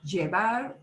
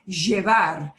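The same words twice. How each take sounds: First: The double L has a standard pronunciation. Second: The double L is said the Buenos Aires way.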